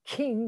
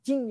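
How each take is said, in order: First: Said in the usual way. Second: "Jing" with a J sound in place of K; Chinese-accented "king". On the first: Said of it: "They don't say the king". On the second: Retold or imitated. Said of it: "they say Jing".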